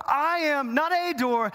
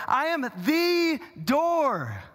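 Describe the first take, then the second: First: "not a" punched high and drawn out; slow, high emphatic denial leaning on "a" as just any one; stress on "not a". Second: "the" stretched long and high as "thee", the one and only; very slow, high declaration hammering "the"; stress on THE. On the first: Jesus denying he is merely a door, stress on "not a". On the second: Jesus declaring himself the only door, stress on "the". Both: Acted. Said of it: "he's saying emphatically".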